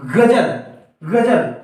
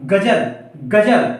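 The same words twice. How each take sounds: First: गजल with a throaty gh and a buzzing z, ghazal; Urdu gh and z. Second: गजल with a plain g and plain j, gajal; Hindi g and j. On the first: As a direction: give both sounds in गजल their nuqta buzz. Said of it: "गा और जा दोनों में झनकार आएगी". (ग़ज़ल, ग़ और ज़ दोनों में झनकार) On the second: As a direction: say गजल with no buzz. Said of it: "इसको हम एकदम झनकार के रूप में नहीं बोल". (गजल बिना झनकार, सादे ग और ज से) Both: Shown as a demonstration.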